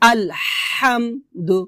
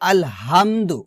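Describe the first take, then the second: First: The h is squeezed from the middle of the throat. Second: The h is a plain, light breath. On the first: The speaker calls it right. "আমি যেভাবে উচ্চারণ করতেছি ঠিক সেভাবে উচ্চারণ করে ট্রাই করেন" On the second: The speaker calls it wrong. "আমরা আলহাম না বলে বলি আলহামদু"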